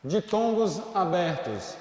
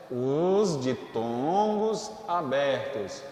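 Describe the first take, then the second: First: Said in the usual way. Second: "Os ditongos abertos" slowly, with every syllable weighed; slow emphatic heading. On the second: Shown as a demonstration. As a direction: spell the heading out slowly for the class. ("Os ditongos abertos" bem devagar e marcado)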